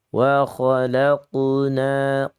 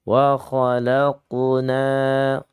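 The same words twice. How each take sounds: Both takes have the same delivery.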